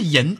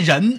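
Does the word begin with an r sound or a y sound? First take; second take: y sound; r sound. First: The word begins with a y sound. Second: The word begins with an r sound. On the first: The speaker calls it wrong. "不是银" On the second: The speaker calls it right. "那念人不是银啊"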